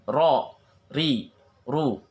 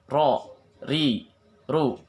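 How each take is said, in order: No difference in how they are said.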